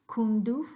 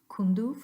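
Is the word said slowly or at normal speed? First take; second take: slowly; normal speed. First: It is said a little slowly. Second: It is said at a more normal speed. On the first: "at a little bit slow speed" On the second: "now at a little bit more natural speed"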